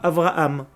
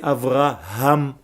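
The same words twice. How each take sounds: First: The middle h sound is dropped and silent. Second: The middle h sound is clearly breathed out. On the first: The speaker calls it wrong. "Ce n'est pas Avraham" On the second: The speaker calls it right. "c'est Avraham"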